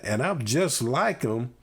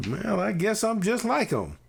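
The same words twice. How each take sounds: First: Said in the usual way. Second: Put-on child's voice pitched much higher, giving in; resigned child's realization. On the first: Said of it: "the tone of voice". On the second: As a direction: let it land high as the kid finally concludes. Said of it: "the tone of voice, Mike, that you just used".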